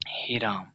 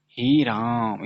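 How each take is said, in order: First: Said in the usual way. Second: हे राम with both vowels stretched long; extra-long vowels in हे राम; prolonged pluta vowels. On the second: Shown as a demonstration. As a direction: draw out हे and राम as if calling from afar. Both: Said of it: "इसमें ज़्यादा समय लग रहा है".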